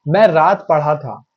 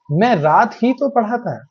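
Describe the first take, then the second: First: Said in the usual way. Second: ही तो pressed with extra weight; stress on ही तो. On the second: Shown as a demonstration. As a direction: lean into ही तो. ("ही तो" पर ज़ोर) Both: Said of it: "शब्दों पे जोर देते हैं".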